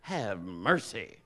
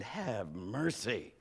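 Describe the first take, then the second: First: Low, slow and hushed in awe; slow awed sigh. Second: Low, soft and slow, lovestruck; slow hushed awe. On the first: Jacob seeing Rachel, low slow awed have mercy. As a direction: breathe it out, struck by beauty. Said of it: "He says". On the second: Pastor recalling his wife, soft slow smitten have mercy. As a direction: let it out like a smitten sigh. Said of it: "I might as well have said". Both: Retold or imitated.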